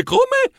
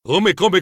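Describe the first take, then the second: First: Startled come. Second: Said in the usual way. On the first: Real, not acted. Narrator stunned by the challenge, squeaky come?. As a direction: come squeaked much higher in disbelief. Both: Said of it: "Avevo capito bene?".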